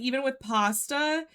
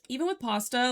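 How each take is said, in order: First: Pasta is said with a strong marked accent. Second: Pasta is said in a plain ordinary accent.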